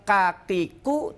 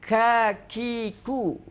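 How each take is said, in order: First: The k sounds have no puff of air. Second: The k sounds have a puff of air. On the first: The speaker calls it wrong. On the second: The speaker calls it right.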